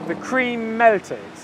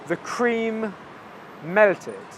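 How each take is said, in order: First: Said quickly with the M sounds merged into one. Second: Said slowly with two separate M sounds. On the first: The speaker calls it right. "at native English speed" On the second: The speaker calls it wrong. "if I say really slowly"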